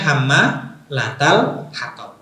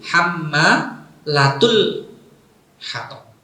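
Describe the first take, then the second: First: The word hammalat ends with an a vowel. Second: The word hammalat ends with a u vowel. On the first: This is the usual reading. "kalau kita pakainya hamma latal hatab" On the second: This is another permitted reading. "Jadi pakainya domah"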